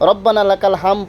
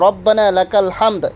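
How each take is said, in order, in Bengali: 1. শেষ শব্দটিতে কোনো d উচ্চারণ নেই। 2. শেষ শব্দটিতে একটি স্পষ্ট d উচ্চারণ আছে। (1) "এখানে রব্বানা লাকাল হাম পড়ে" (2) "এরপরে আপনার আছে রব্বানা লাকাল হামদ"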